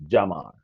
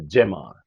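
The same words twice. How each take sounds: First: Jamar said "jah-MAR"; Jamar, starting like "jam" with a long ah; first pronunciation. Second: Jamar said "jem-AR"; "eh" in the first syllable of Jamar; Jamar, starting like "gem"; alternative pronunciation. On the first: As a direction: open "ah" in the first syllable of Jamar. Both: Shown as a demonstration. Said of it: "we go pronounce it Jamar or Jamar".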